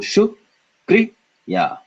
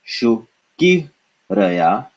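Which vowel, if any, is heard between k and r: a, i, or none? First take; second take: none; i. First: No vowel is heard between k and r. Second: An i vowel is heard between k and r. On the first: The speaker calls it right. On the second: The speaker calls it wrong. "and not shukiraya"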